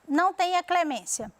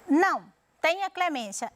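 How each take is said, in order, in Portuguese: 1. É dito sem pausa depois de não. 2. Há uma pausa logo depois de não.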